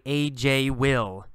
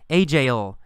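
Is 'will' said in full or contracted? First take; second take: full; contracted. First: 'Will' is said as a full separate word. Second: 'Will' is shortened to a short 'ol' sound. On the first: This is how it is written, not usually spoken. The speaker calls it wrong. "We don't say usually A J will. That's written English" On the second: This is how it is said in natural speech. The speaker calls it right. "in speaking, we just add that ol sound"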